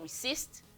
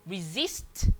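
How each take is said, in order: First: The middle consonant is a hissing s sound. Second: The middle consonant is a buzzing z sound. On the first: The speaker calls it wrong. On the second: The speaker calls it right. "Resist with Z"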